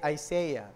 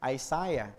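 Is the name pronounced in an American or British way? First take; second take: American; British. First: The name is said in an American accent. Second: The name is said in a British accent. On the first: "kung kayo ay Amerikano, ang bigkas ay Isaiah" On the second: "Pero kung kayo ay British"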